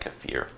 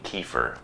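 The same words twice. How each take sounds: First: The word is said differently from the American way. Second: The word is said the common American way. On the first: This is closer to how it should be said. The speaker calls it right. "it should be more like kefir" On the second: This is how most people in the US say it. The speaker calls it wrong. "most people in the U S pronounce it like kefir"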